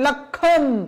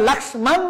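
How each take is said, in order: First: The m sound is dropped entirely. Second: The m sound is clearly pronounced. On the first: The speaker calls it right. "আমরা বলি লক্ষণ, এই জন্য ম বর্ণটা লোপ পেয়েছে" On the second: The speaker calls it wrong. "আমরা লক্ষ্মণ বলি না"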